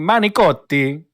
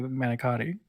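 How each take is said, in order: First: It is said with an exaggerated Italian accent. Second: It is said with a plain English accent. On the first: The speaker calls it wrong. "let's pretend I'm uh Italian" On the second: The speaker calls it right. "Just say manicotti"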